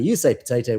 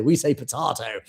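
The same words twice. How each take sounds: First: POTATO said the American way, "po-TAY-to". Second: POTATO said the British way, "po-TAH-to". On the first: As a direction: say potato with a long AY in the middle. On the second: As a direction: say potato with a broad AH in the middle. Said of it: "we say potato". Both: Shown as a demonstration.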